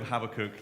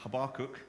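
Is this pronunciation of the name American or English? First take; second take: English; American. First: The name is said the English way. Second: The name is said the American way. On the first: "So I'm going to call him Habakkuk" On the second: "a lot of the Americans ... they pronounce it Habakkuk, which is a little bit different"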